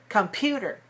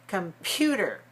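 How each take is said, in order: The two takes are said the same way.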